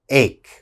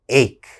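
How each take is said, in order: First: The word ends with a k sound. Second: The word ends with a k sound.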